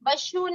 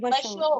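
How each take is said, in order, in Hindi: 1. अक्षर का अंत 'u' स्वर से होता है। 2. अक्षर का अंत 'o' स्वर से होता है। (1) "वशु नहीं"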